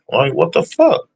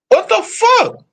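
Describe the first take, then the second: First: Said in the usual way. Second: Much higher, squeaky exasperated cry; squeaky what the fuck. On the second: Real, not acted. Griping about the Bills' missed field goal, high squeaky disbelief.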